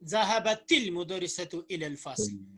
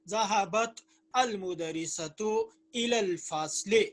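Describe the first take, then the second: First: The words are joined by a linking vowel. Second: The words are separated with a break between them.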